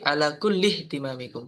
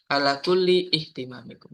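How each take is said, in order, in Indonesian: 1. Kata-katanya menyambung tanpa vokal terpisah. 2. Vokal terpisah diucapkan sebelum kata terakhir.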